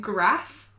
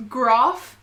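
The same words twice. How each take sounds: First: Second "graph" with a short A, as in cat. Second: First "graph" with a long AH, as in father. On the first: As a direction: say "graph" to rhyme with gaffe. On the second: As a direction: say "graph" as grahf. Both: Shown as a demonstration. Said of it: "Graph sounds bogan to me".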